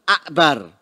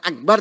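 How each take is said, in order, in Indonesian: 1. Huruf k-nya diucapkan sebagai k yang jelas. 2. Huruf k-nya diganti hamzah. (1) "tapi akbar" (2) "Hamzah kafnya diganti hamzah ... bukan akbar"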